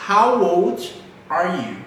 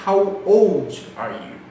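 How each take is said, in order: First: Said in the usual way. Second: Put-on old drawn out and leaned on, slow; slow teacher drill leaning on old; stress on old. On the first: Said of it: "One more time". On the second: Shown as a demonstration. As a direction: hit the word old. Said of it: "Vocês viram que eu foquei um pouquinho no old".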